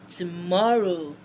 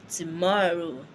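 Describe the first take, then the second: The two takes are said the same way.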